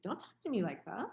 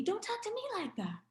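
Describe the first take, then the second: First: A touch of irritation, at her usual pitch; retelling her own snappish reply; mild irritated retort. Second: Much higher, fast mimicking retort; lightly imitating the young man parroting her; mocking young man. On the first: Retold or imitated. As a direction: push back, mildly annoyed. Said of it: "I got irritated". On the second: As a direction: throw her words back at her, mocking. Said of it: "then he said to me".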